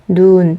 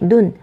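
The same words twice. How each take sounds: First: The vowel is held long. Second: The vowel is said short. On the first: It means snow. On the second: It means eye.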